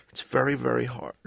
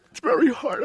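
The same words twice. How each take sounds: First: Said in the usual way. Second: Hammed-up crying. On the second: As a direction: voice jumps much higher and louder as he breaks into tears. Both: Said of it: "I promised myself I wasn't gonna cry today".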